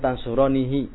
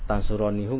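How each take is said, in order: First: The final syllable ends with an 'ee' vowel. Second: The final syllable ends with an 'oo' vowel. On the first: The speaker calls it right. "adanya tansuronihi" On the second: The speaker calls it wrong. "tansuronihu nggak ada"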